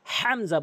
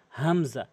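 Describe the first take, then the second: First: "হামজা" with a heavy rasped h at the front, as a mistake; wrong pronunciation demo. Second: "হামজা" opened lightly from the start of the throat; correct pronunciation demo. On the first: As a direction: show the mistake, "হামজা" opening on a strong throaty h. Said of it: "হামজা বলা যাবে না". ("হামজা"-র শুরুতে ভারী হ দিয়ে ভুল উচ্চারণ) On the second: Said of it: "হামজা এভাবে বলবেন". ("হামজা" হলকের শুরু থেকে হালকা করে) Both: Shown as a demonstration.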